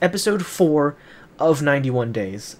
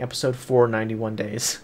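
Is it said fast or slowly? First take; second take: slowly; fast. First: It is said slowly and clearly. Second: It is said fast and run together.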